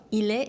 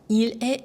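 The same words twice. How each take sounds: First: The l sound runs straight into the vowel. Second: The two words are said separately, without linking. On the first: The speaker calls it right. "항상 연음해 주시는 거 잊지 마시고요" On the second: The speaker calls it wrong. "일에, 엘에, 온에 아니죠?"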